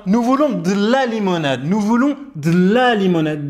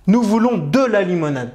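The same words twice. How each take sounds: First: "de la" run together with the E of "de" dropped; fast-speech pronunciation. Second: "de la limonade" with a full E in "de"; careful "de la", the E of "de" clearly voiced; every letter pronounced. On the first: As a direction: say "de la limonade" as d'la limonade, the E swallowed. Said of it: "إن نتكلم بسرعة". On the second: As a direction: sound "de" and "la" as two separate syllables. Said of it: "أن تنطق كل الحروف". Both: Shown as a demonstration.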